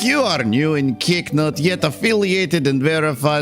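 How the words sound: It is read in a put-on character voice.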